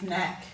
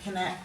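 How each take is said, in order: First: The word begins with an N sound. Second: The word begins with a K sound. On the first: This is how the word is said today. "silent K" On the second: This is how the word was once said. "They would have once pronounced that K"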